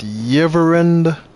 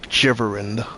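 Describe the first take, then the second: First: The name begins with a Y sound. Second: The name begins with a J sound.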